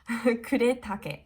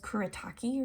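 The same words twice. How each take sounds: First: The name is said in a Japanese way. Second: The name is said in an anglicized way. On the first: The speaker calls it right. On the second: The speaker calls it wrong.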